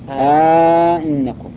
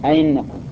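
First: The second glottal stop is softened, with a long vowel. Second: The second glottal stop is softened, no lengthening. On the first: "وعلى التسهيل أئنكم سهل" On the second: "تسهيل الثانية أئنكم سهلة، خليها بين الياء والهمزة"

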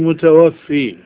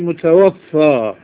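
First: The word ends with an 'ee' vowel. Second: The word ends with an 'aa' vowel. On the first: The one who takes souls at death. The speaker calls it wrong. "لا تقولي متوفي" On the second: The one who has died. The speaker calls it right. "قولي متوفى"

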